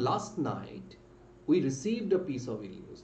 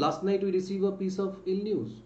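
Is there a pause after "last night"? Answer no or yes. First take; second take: yes; no. First: There is a short pause after "last night". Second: It runs on with no pause after "last night". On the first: The speaker calls it right. "Last night বলে কিন্তু আমরা থামলাম অল্প সময়" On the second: The speaker calls it wrong. "এখানে আমি কি বলবো"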